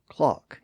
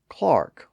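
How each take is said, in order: First: The vowel sounds like 'ah' without an R. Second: The vowel sounds like 'ar' with an R. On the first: "Clark or clock in standard British English" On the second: "Clark or clock in standard British English"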